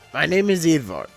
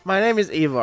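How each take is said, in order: First: It is spoken with a put-on Russian accent. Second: It is spoken in the speaker's ordinary accent. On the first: "I'm really tempted to voice this guy with a Russian accent" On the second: "I can't do accents"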